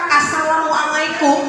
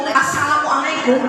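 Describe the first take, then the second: The two takes are said the same way.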